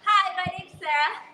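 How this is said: It is said in a cheerleader voice.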